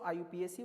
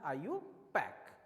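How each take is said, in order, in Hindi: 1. आखिरी अक्षर अलग-अलग बोले जाते हैं, P-A-C। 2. अंत एक ही शब्दांश में बोला जाता है, pack। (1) "कई लोग इसको आयुपीएसी बोलते हैं, वो बिल्कुल प्रोनाउंसिएशन गलत है" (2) "इसका जो प्रोनाउंसिएशन होता है वो होता है आयुपैक"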